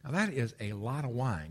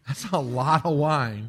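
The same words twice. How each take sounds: First: Said in the usual way. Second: Laughing through the words. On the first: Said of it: "You can do the math". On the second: Real, not acted. Preacher amused by Calvin's wine salary, laughing. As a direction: chuckle at the amount of wine.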